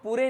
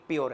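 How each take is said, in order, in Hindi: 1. यह दो अक्षरों की तरह बोला जाता है, जैसे 'poo-ray'। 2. यह एक अक्षर की तरह बोला जाता है, जैसे 'pyoor'। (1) "ये तो पूरे लिखा है"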